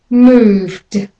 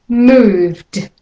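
No difference in how they are said.

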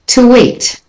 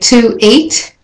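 First: The words are joined by a linking w sound. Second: The words are said separately, without a linking sound.

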